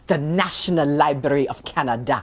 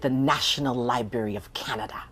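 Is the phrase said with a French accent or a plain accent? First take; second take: French; plain. First: It is said with a slight French accent. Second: It is said in a plain accent.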